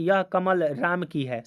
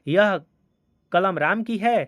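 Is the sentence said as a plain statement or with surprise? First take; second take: plain statement; surprise. First: It is said as a plain, neutral statement. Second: It is said with a surprised tone. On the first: It simply states whose pen it is. "सामान्य कथन" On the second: The speaker is astonished that the pen is his. "तो आश्चर्य के तरह हम लोग बोल रहे हैं"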